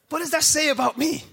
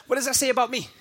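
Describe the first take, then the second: First: Higher repeat with that stressed; repeated question, emphasis on that. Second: Said in the usual way. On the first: Shown as a demonstration. Pastor repeating the question to the church, emphasis on that. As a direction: lean on that.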